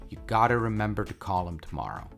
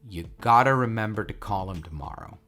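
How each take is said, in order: First: Words are reduced and linked in natural speech. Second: Words are reduced and linked in natural speech.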